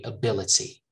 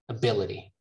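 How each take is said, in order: First: The t is a crisp, clear t. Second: The t is a soft, quick flap. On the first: This is how most British people say it. "most British people, on the other hand, will say ability" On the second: This is how many Americans say it. "in American English, a lot of people say ability"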